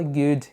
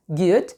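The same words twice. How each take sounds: First: Good in a North American accent. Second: Good in a light Brazilian accent. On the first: Teacher contrasts native speech, North American accent. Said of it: "igual um norte-americano". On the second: Teacher allows learners their accent, light Brazilian accent. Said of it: "com o seu sotaque brasileiro". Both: Shown as a demonstration.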